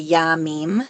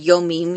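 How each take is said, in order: First: The first vowel is an 'a' sound. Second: The first vowel is an 'o' sound. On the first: The speaker calls it right. "you say Yamim" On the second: The speaker calls it wrong. "You don't say Yomim"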